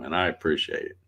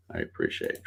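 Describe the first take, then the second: First: Said in the usual way. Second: Repeated much lower and softer. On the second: Real, not acted. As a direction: let it drop low, almost to yourself. Repeats thanks to viewers.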